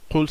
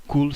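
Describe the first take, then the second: First: "qul" with a deep back-of-throat q; deep qaf qul. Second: "kul" with a light front k; a light, front "kul", not the throat q; front kaf kul. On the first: Teacher shows the children "qul", meaning say, with a deep q. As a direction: close the back of the mouth, then release "qul". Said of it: "ça veut dire dis". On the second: Teacher contrasts with "kul", meaning eat, with a front k. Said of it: "ça veut dire mange". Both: Shown as a demonstration.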